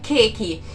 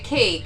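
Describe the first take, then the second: First: It is said with an added final vowel. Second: It is said as a plain English word. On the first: Listeners in Japan understand it. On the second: Listeners in Japan do not understand it.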